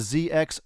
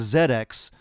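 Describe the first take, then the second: First: The letter Z is pronounced zee. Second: The letter Z is pronounced zed. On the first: The speaker calls it wrong. "our U K listeners are hating this pronunciation" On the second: The speaker calls it right. "maybe I should be saying the Z X system"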